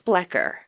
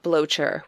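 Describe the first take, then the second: First: The vowel sounds like 'eh'. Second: The vowel sounds like 'oh'. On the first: The speaker calls it right. "I think it's Blecher" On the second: The speaker calls it wrong. "not Blocher, which is how I've heard it pronounced before"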